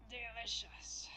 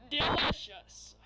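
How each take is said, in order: First: Creepy whispered voice. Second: Slow, sleazy drawn-out voice; sleazy pickup line. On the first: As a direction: breathe it out like a creep. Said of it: "I need to creep your voice for him". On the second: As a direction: savour the word like a creep. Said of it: "I gotta do this guy voice". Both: Acted.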